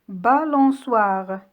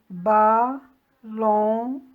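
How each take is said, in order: First: Said in the usual way. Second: "balançoire" broken into ba, lan, çoi, re with pauses; split into syllables. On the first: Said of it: "Découpez les mots en syllabes". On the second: Shown as a demonstration. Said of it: "On dit".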